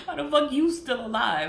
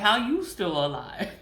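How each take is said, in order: First: Higher, laughing through the question; incredulous laugh on the repeat; laughing disbelief. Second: Said in the usual way. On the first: Retold or imitated. Mocking her enemy's survival, laughing. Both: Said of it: "I'm like".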